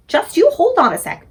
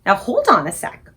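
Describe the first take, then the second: First: "you" punched high and loud; stress on you. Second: Said in the usual way. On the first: Acted. Sophie stops the BFG, "you" high and loud. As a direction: hit "you" hard, hold on a sec.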